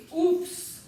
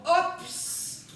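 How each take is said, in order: First: "oups" with a rounded ou, slow and drawn out; right sound oups. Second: "ops" with an open o, slow and drawn out; wrong sound ops. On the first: Teacher slowly showing the class the right sound "oups". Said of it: "c'est oups". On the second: Teacher slowly showing the class the wrong sound "ops". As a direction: stretch out the wrong "ops" so the class hears the mistake. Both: Shown as a demonstration.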